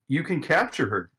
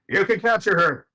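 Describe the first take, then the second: First: It is said flatly, without excitement. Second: It is said excitedly, like an exclamation.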